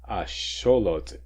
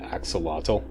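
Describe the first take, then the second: First: It is said like 'asholot', Nahuatl style. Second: It is said like 'axolotl', English style. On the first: The speaker calls it right. "how this is properly pronounced" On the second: The speaker calls it wrong. "the English pronunciation axolotl. That's that's wrong"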